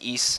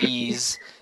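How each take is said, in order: First: It rhymes with geese, ending in an s sound. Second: It rhymes with please, ending in a z sound. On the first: The speaker calls it right. "it's pronounced East" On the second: The speaker calls it wrong. "not ease"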